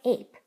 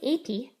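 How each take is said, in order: First: The word ends on the P sound. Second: An extra vowel sound is added after the P. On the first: The speaker calls it right. "just say ape. The E is silent" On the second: The speaker calls it wrong. "Don't say apey"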